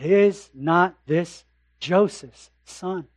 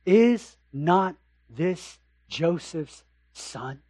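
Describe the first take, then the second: First: Doubting neighbour. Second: Skeptical townsfolk. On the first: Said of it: "I get that he's a great preacher". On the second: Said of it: "another reaction sets in". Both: Acted.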